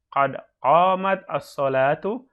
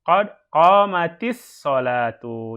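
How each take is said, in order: First: The t stops before as-salatu with no vowel. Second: The t takes an i vowel and links forward.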